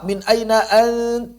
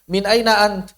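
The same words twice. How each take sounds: First: The n sound is held with nasal resonance. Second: The n sound is plain and short.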